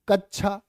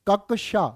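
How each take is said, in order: First: The middle sound is a 'chh' sound. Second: The middle sound is a 'ksh' sound. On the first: The speaker calls it wrong. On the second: The speaker calls it right.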